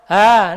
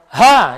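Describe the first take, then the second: First: The sound is said weakly, without pressure. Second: The sound is said firmly, with strong pressure. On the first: The speaker calls it wrong. "Gak menggunakan" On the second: The speaker calls it right. "Jadi ada tekanan-tekanannya"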